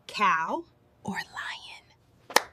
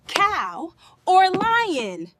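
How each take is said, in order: First: Slow whispered question. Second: Said in the usual way. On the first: Acted. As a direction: whisper the two choices slowly. Whispered take before voiced repeats.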